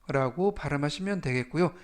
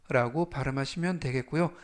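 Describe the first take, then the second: The two takes are said the same way.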